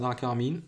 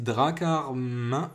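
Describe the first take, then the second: First: The name ends in an 'een' sound. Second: The name ends in a nasal vowel. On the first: The speaker calls it wrong. "et pas Dracarmine" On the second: The speaker calls it right. "c'est Dracarmin"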